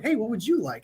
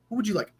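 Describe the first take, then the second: First: It sounds like a casual, friendly question. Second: It sounds like a serious, businesslike question.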